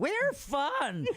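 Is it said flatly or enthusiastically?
enthusiastically. It is said with more enthusiasm.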